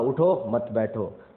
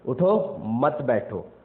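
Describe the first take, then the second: First: The pause comes after 'उठो', meaning get up. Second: The pause comes after 'मत', meaning don't get up.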